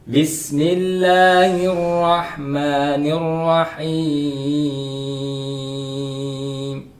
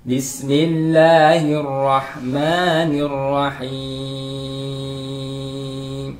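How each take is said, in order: Both takes have the same delivery.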